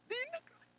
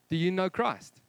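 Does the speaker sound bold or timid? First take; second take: timid; bold. First: It is asked timidly, in a changed voice. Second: It is asked boldly and confidently.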